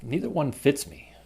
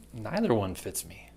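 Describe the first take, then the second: First: Neither as NEE-ther; long ee in "Neither". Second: Neither as NYE-ther. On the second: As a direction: eye sound in "Neither". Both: Shown as a demonstration. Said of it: "neither, neither".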